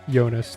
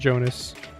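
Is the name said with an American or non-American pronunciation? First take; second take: non-American; American. First: The name has a non-American pronunciation. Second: The name has an American pronunciation. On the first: This is how the person says his own name. The speaker calls it right. "that's what he said" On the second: This is how an American would say the name. The speaker calls it wrong. "not Jonas. I can't say it like a dumb American"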